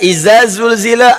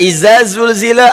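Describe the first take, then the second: First: Every consonant is pronounced as a z sound. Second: Every consonant is pronounced as a z sound.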